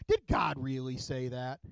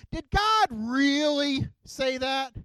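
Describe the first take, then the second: First: Lightly voiced devil. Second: High, loud and slow, drawn out like a sly serpent; the snake teasing Eve, stretching every word; tempting snake voice. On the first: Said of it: "he says this to her". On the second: Acted. Snake questioning Eve, high, loud, slow and sly. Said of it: "the snake says to Eve".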